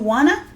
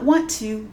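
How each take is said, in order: First: The two words blend into reduced 'wanna'. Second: Both words are said fully and separately. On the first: The speaker calls it right. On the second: The speaker calls it wrong. "not want to"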